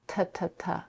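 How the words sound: The t is made further back, on the ridge. "English t t t"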